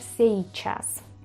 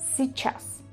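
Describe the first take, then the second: First: A full i sound is heard in the middle. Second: Only a very soft i sound is heard. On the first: The speaker calls it wrong. "por lógico se debería pronunciar сейчас, pero no se pronuncia así" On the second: The speaker calls it right. "muy, muy, muy suave"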